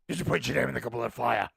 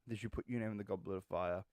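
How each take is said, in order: First: The question is asked aggressively and loudly. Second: The question is asked calmly and quietly.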